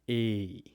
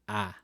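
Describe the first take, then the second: First: The vowel is long and drawn out. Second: The vowel is short and clipped. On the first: The speaker calls it wrong. "there will never be a Tagalog word where it's pronounced" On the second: The speaker calls it right. "It will always be"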